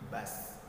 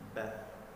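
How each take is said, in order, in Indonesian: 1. Kata ini diakhiri dengan bunyi s mendesis. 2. Kata ini diakhiri dengan bunyi th lembut. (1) "tidak membunyikan huruf s seperti bas. Nah, ini salah" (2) "perhatikan pada saat sukun bath"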